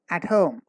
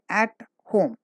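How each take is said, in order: First: The two words run together without a pause. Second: A pause separates the two words. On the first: The speaker calls it right. "There should be no gap" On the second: The speaker calls it wrong. "Don't say"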